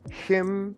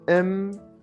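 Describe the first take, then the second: First: The word is said in full with h. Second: The word is reduced to a bare m.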